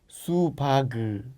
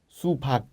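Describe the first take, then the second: First: The final consonant is released and drawn out. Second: The final consonant is short and unreleased. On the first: The speaker calls it wrong. "no puedes pronunciar supag" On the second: The speaker calls it right. "Hay que ser corto"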